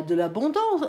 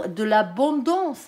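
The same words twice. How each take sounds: First: Said in the usual way. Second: Drawn-out word in a regional French accent; own French accent. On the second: Real, not acted. Reader repeats abondance before apologising, thick French accent. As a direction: let the French accent stretch "l'abondance". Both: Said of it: "excusez pour l'accent".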